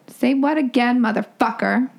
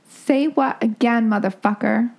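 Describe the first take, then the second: First: It is said angrily and louder. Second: It is said calmly, without anger.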